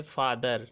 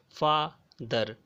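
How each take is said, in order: First: Said in the usual way. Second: "father" in two slow beats, फा, pause, दर; split into syllables. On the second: Shown as a demonstration. Teacher showing students two syllables, "father" said as फा... दर. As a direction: break "father" clearly after फा. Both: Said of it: "दो बार बोलना पड़ रहा है".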